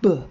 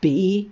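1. Nur der kurze Konsonantenlaut wird ausgesprochen. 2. Der Buchstabe wird mit seinem vollen Namen ausgesprochen. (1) "sondern B, wie bei Baum" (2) "Das B zum Beispiel klingt ja nicht B"

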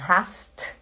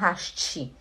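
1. A palavra termina limpa no som de t. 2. Uma vogal i extra vem depois do t final. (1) "Então você tem que falar assim" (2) "não hasti"

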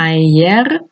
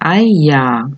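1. La palabra termina en una R clara. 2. La palabra termina en un sonido vocálico parecido a la A. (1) "ayer no" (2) "se dice aya. O sea, la R final suena como una A"

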